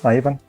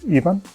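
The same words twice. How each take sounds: First: The name is said in an English way. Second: The name is said in a non-English way. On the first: "In English, I guess it's Ivan" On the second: "we pronounce it. It is Ivan"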